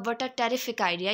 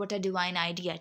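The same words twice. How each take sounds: First: Slow, direct and matter-of-fact; straightforward man's phrasing. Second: Lower, softer and gentle; polite woman's phrasing. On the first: Teacher demonstrating how a man says it, slow and direct. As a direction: say it straight, no frills. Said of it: "यानी कि वो straight forward होकर use करेगा". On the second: Teacher demonstrating how a woman says it, soft and polite. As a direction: say it sweetly and politely. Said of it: "बहुत ज़्यादा polite वे में use करती है". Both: Shown as a demonstration.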